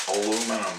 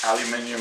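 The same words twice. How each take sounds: First: Aluminum said the American way, a-LOO-mi-num, four syllables. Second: Aluminium said the British way, al-yoo-MIN-ee-um, five syllables. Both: Shown as a demonstration. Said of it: "in America we call it aluminum foil".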